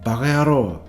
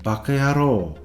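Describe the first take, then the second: First: The second syllable starts with a voiced G. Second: The second syllable starts with a voiceless K.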